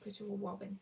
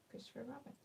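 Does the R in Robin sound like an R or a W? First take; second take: W; R. First: The R sounds are pronounced like W sounds. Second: The R sounds are pronounced as clear R sounds. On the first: "the letter R sounds a bit like the letter W" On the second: "he said"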